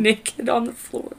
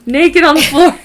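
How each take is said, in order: First: Put-on Naked said slow and quiet with long a, nay-kid; naked as spelled. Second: Naked said loud and high as nek-id; naked as nekkid. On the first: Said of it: "The, not vernacular". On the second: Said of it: "I don't know why I read it". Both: Shown as a demonstration.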